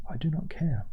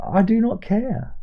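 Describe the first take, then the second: First: "I do not care" whispered, unvoiced and much softer. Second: Slow and pitched higher, each word of "I do not care" hit hard; emphatic. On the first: To his viewers, repeating his dismissal in a whisper. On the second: Acted. To his viewers, dismissing American politics, slow and emphatic. Declares indifference, then repeats.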